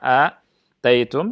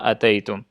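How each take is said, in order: First: The first vowel is drawn out long. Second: The first vowel is kept short. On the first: "dengan mem memanjangkan hamzah" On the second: "dengan memendekkan hamzah"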